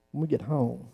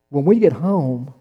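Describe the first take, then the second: First: Hushed, softer. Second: Slow and drawn out. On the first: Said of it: "repeated line, voiced softly". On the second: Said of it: "repeated line, voiced differently". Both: Shown as a demonstration.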